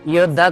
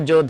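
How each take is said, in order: First: The word begins with a y sound. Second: The word begins with a j sound.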